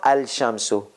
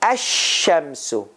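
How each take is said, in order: First: An L sound is heard before the sh sound. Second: No L sound; the sh sound is doubled. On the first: The speaker calls it wrong. "It is not al shamsu. That is wrong" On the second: The speaker calls it right. "You have to say ash shamsu. Do you hear lam sound in it?"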